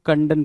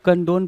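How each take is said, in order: First: कंडन with a short "uh" in the second syllable; short-vowel pronunciation. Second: कंडोन with a long "o" in the second syllable; long-o pronunciation. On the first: Teacher showing how other people read the word, short-vowel कंडन. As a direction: say कंडन as "KAN-dun". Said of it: "कुछ लोग कंडन पढ़ेंगे". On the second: Teacher showing how some people read the word, long-o कंडोन. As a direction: say कंडोन as "kan-DOHN". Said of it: "कुछ लोग कंडोन पढ़ेंगे". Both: Shown as a demonstration.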